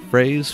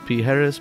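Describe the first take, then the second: First: The name sounds like 'Phrase', one syllable. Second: The name sounds like 'Pijeres', three syllables. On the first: "Commonly mispronounced as Phrase" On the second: "Commonly mispronounced"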